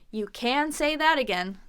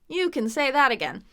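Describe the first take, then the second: First: The word can is fully pronounced and stressed. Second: The word can is reduced and unstressed. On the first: The speaker calls it wrong. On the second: The speaker calls it right.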